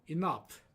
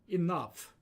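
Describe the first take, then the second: Both takes have the same delivery.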